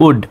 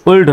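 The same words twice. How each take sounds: First: উড with a silent l; correct pronunciation. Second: উল্ড with the l sounded; wrong pronunciation. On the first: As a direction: model উড as "ud". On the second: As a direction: say উল্ড as spelt, l audible. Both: Shown as a demonstration. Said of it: "উল্ড নয়, উড".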